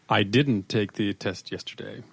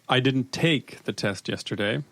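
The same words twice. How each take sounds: First: The stress is on "didn't". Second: The stress is on "take".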